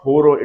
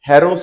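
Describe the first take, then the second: First: The first vowel sounds like 'ho'. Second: The first vowel sounds like 'ha'. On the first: The speaker calls it wrong. "गलत pronounce करते हैं होरो" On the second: The speaker calls it right. "It's हैरो size bat"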